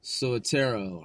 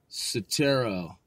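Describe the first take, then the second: First: Soetoro as so-uh-TAIR-oh, four syllables, slow; second-try pronunciation. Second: Soetoro as suh-TAIR-oh, three syllables, slow; unsure pronunciation. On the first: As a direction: sound out Soetoro with an extra syllable after the S. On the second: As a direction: say Soetoro slowly with a reduced first syllable. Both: Shown as a demonstration. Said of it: "or however you pronounce that".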